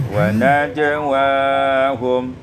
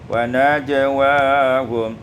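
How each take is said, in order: The two takes are said the same way.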